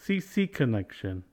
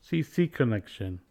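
Both takes have the same delivery.

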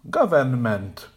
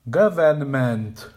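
First: Every syllable is said with a full vowel. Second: Every syllable is said with a full vowel.

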